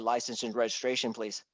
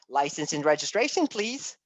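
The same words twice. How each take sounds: First: The voice falls at the end. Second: The voice rises at the end. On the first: The speaker sounds authoritative and in charge. The speaker calls it right. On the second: The speaker sounds weak and lacks authority. The speaker calls it wrong.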